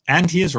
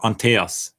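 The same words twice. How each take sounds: First: "Antius" as ANT-ee-us; Antius, first reading. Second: "Anteas" as an-TAY-us; Anteas, alternative reading. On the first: Trying out a viewer's name, "Antius" stressed on the first syllable. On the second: Second guess at a viewer's name, "Anteas" stressed in the middle. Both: Shown as a demonstration. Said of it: "Antius or Anteas".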